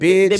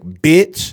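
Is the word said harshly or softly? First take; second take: softly; harshly. First: The word starts with a soft, light B. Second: The word starts with a hard, forceful B. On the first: The word is used casually, without offense. "but he'd be like" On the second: The word is meant as an insult. "bitch with a hard B"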